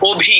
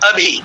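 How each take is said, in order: First: The first vowel is rounded, Bengali style. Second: The first vowel is open and unrounded. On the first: "আমরা যদি বাঙালিরা সেটাকে উচ্চারণ করে কি বলবো" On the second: "হিন্দি ভাষা যেমন বলে"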